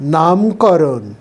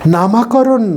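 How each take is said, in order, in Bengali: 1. প্রথম দলের পরে কোনো স্বরধ্বনি নেই। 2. প্রথম দলের পরে একটি অতিরিক্ত 'a' স্বরধ্বনি আছে। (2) "নামাকরণ নয়"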